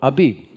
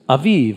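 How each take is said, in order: First: The middle consonant is a b sound. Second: The middle consonant is a v sound. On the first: "I know it probably says in your Bible, Abib" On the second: "the B sound and the V sound come from the same letter"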